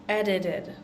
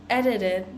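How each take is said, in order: Both takes have the same delivery.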